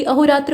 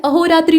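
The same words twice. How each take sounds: First: अहोरात्र ending in tra; no i closing अहोरात्र. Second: अहोरात्रि ending in tri; i sound closing अहोरात्रि; wrong -tri ending. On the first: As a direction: say अहोरात्र with short final a. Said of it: "अहोरात्र होता है". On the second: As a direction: say अहोरात्रि with final i. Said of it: "नहीं बल्कि अहोरात्र". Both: Shown as a demonstration.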